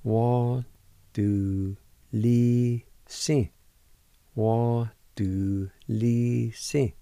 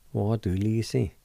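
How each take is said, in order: First: Du li si stretched out slowly, each syllable apart; slow pronunciation. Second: Said in the usual way. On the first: Shown as a demonstration. Teacher to students learning Cherokee, slowly sounding out. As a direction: spell out Wa du li si very slowly. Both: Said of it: "It's pronounced like this".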